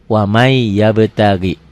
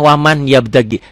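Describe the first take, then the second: First: The n merges into the following y. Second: The n is clearly sounded before the y. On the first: The speaker calls it right. "dibacanya wamai" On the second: The speaker calls it wrong. "tulisannya waman"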